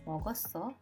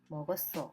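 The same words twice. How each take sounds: First: The pitch rises at the end. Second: The pitch falls at the end. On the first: It is a question. "salah seorang dari mereka bertanya" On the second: It is an answer. "kemudian dijawab"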